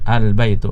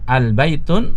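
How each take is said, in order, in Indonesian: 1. Kata itu diakhiri vokal tanpa n. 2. Kata itu diakhiri dengan bunyi n tambahan. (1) "Yang benar adalah al baitu" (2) "salah kalau kita membacanya dengan al baitun, itu salah"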